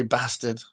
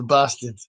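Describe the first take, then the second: First: Northern-style "bastard" with a short a; Sean Bean's bastard. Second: Southern English "bastard" with a long ah; Southerner's bastard. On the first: Showing chat how a northern actor says it, "bastard" with short a. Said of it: "Sean Bean would say bastard". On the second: Showing chat their own southern way, "bastard" with long ah. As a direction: say "bastard" as bah-stard. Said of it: "But I would say". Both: Shown as a demonstration.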